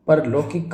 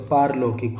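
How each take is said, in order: First: परलौकिक said with a short "par"; wrong form. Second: पारलौकिक said with a long "paar"; correct form. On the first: Teacher reads the misspelling, परलौकिक with a short par. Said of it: "परलौकिक कभी नहीं होता". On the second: Teacher gives the correct word, पारलौकिक with a long paar. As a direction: stretch the aa in पारलौकिक. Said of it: "पारलौकिक होता है". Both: Shown as a demonstration.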